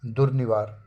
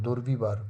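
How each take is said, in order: First: दुर्निवार with ni in the middle; correct form. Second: दुर्विवार with vi in the middle; wrong form. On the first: Teacher corrects the word, दुर्निवार with clear n. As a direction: clearly sound n after dur in दुर्निवार. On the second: Teacher rejects a non-word, दुर्विवार with v. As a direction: say the faulty दुर्विवार, v after dur. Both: Shown as a demonstration. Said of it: "कोई शब्द ही नहीं होता".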